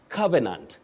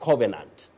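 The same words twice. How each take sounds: First: The first vowel is the 'sun' vowel. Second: The first vowel is not the 'sun' vowel. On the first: The speaker calls it right. "This one, ka. Covenant" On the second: The speaker calls it wrong. "not covenant"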